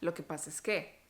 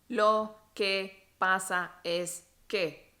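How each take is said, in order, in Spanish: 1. Las palabras se dicen juntas, como una sola unidad. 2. Cada palabra se dice por separado, una por una. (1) "lo decimos como una sola unidad" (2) "Nosotros no decimos"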